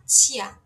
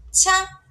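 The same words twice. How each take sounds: First: "tia" as "tchia", louder, gliding from I to A; aspirated IA glide. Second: "Tcha" high and loud, straight into an open A; aspirated plain A. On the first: Teacher contrasting two syllables for learners, "tia" with glide. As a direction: puff "tia" with an audible Y glide. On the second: Teacher contrasting two syllables for learners, "Tcha" without glide. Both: Shown as a demonstration. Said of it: "tcha é diferente de tia".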